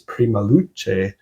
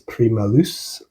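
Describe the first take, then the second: First: The name is said with Italian pronunciation. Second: The name is said with French pronunciation. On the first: "founded by Italian members, so maybe it's" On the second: "they're a French band, so maybe it's"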